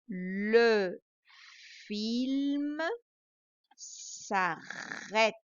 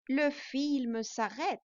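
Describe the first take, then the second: First: The sentence is read at a slow pace. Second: The sentence is read at a faster pace. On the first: "plutôt doucement" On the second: "je vais le dire plus vite"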